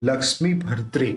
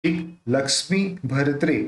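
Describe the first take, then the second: First: भरत्रे repeated with the र clearly bound into the cluster; joined r sound. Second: भरत्रे with the र fused tightly into the cluster; भरत्रे spoken as one bound cluster, r glued on; joined r sound. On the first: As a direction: model भरत्रे again, r joined smoothly. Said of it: "जोड़ के बोलना है". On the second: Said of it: "एक र के साथ अपने को जोड़ के". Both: Shown as a demonstration.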